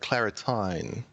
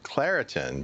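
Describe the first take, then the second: First: It is said with an Australian accent. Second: It is said with a North American accent.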